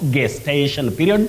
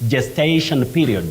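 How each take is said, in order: First: Gestation begins with a hard G sound. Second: Gestation begins with a voiced J sound. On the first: The speaker calls it wrong. "not gestation period" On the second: The speaker calls it right. "the G takes sound J, the voiced sound J"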